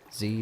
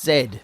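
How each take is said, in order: First: The letter is said the American way, zee. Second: The letter is said the British way, zed.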